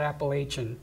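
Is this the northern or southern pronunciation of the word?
northern. It is said the northern regional way. The speaker is from the north. "as soon as you get to the Mason-Dixon line, then you call it Appalachian"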